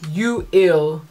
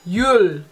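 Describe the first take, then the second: First: The word is split into two syllables. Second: The word is said as one syllable. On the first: The speaker calls it wrong. "nine times out of ten they're not really gonna understand me" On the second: The speaker calls it right. "here, it usually sounds like Yul"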